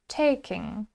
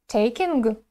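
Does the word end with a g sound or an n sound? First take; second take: n sound; g sound. First: The word ends on an n sound, no g. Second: The word ends with an audible hard g sound. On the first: The speaker calls it right. "заканчиваем произносить слово э, на n" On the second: The speaker calls it wrong. "такого не должно быть, да, это неправильно"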